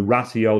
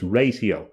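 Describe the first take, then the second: First: "ratio" as RAT-ee-oh, short a; "ratio" in three syllables with a short first vowel; Latin pronunciation. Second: "ratio" as RAY-see-oh, long a; "ratio" opening on a long ay vowel; mathematical pronunciation. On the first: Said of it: "the Latin sense for". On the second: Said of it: "ratio in the mathematical sense". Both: Shown as a demonstration.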